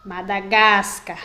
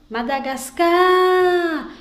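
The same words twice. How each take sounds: First: "Madagascar" slowed, GAS stronger; stress on gas. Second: "Madagascar" called out, CAR stretched long and high; slow, loud, high call of "Madagascar", madagas-CAAAR; calling from afar. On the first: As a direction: say "Madagascar" as mada-GAS-car, falling on car. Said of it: "pronunciado de uma forma mais forte". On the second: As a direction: shout "Madagascar" to someone distant, holding the last syllable. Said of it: "Chamando bem distante". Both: Shown as a demonstration.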